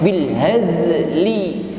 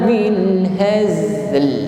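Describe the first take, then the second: First: The final l is followed by an i vowel. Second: The word ends on a bare l sound. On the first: The speaker calls it wrong. "tidak dibaca dengan harokatnya" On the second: The speaker calls it right. "yang tampak hanya sifatnya saja"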